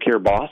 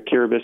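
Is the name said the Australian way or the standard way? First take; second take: Australian; standard. First: The name is said the Australian way. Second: The name is said the standard, non-Australian way. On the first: "if you're Australian" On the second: "it's actually pronounced Kiribati, like the T and the I at the end sounds like an S"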